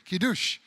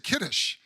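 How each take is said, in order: First: It is said in a modern way. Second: It is said in an old-fashioned way. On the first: The speaker calls it right. "I should say Kiddush" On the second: The speaker calls it wrong. "I sound like I'm uh, one hundred twelve years old"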